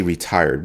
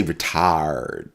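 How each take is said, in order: First: Said in the usual way. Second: "retired" drawn out slowly as "re-tahd"; drawled joke pronunciation. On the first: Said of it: "we don't say retired". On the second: Shown as a demonstration. Joking with mother about retiring, "retired" drawled as "re-tahd". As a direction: stretch "retired" into a lazy "re-tahhd". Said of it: "we say retired".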